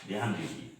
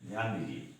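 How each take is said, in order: No difference in how they are said.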